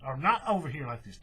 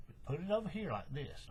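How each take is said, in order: First: Not hit louder as the wrong way; stress on not. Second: Said in the usual way. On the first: Shown as a demonstration. Crafter warning viewers off the wrong side, stressing not. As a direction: push the word not hard, then let the rest fall. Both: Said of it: "No, no, no".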